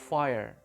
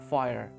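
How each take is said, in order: The two takes are said the same way.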